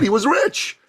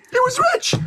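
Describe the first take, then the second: First: Said in the usual way. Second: Shouted emphasis. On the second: Shown as a demonstration. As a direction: blast out rich like a proud son.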